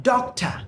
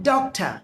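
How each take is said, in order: The two takes are said the same way.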